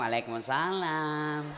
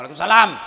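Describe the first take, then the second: First: It is said in a soft, drawn-out, lilting voice. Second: It is said in a short, firm, flat voice.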